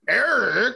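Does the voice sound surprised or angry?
angry. It sounds angry and stern.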